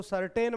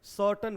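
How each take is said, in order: First: "सर्टेन" said as ser-TEN with a clear r and long e; the mistaken spelling-pronunciation "सर्टेन", r sounded; "सर्टेन" with r and stressed -ten, the wrong way. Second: "सर्टेन" as SUR-tn, no r, weak second vowel; the right way: "सर्टेन" like English certain; correct pronunciation. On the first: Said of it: "इसको सर्टेन मत पढ़िएगा". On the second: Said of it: "सर्टेन पढ़ेंगे". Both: Shown as a demonstration.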